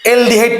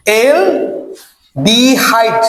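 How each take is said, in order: First: Said in the usual way. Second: aldehyde stretched very slowly in separate parts; drawn-out repetition. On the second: Shown as a demonstration. Teacher has students repeat the term, aldehyde drawn out slowly. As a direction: draw out aldehyde, pausing before the last part. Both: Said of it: "কি থাকবে বলতো?".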